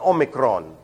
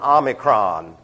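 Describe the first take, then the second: First: The first vowel sounds like 'oh'. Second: The first vowel sounds like 'ah'. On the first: The speaker calls it right. "It's an Omicron" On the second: The speaker calls it wrong. "they insist on pronouncing their O's like A's"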